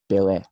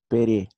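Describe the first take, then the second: First: The middle consonant is a clear L sound. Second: The middle consonant is a flapped R sound. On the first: This is the original form of the name. "na verdade eles estão falando do Pelé" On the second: This is how Japanese speakers say the name. "reproduz-se como Pere"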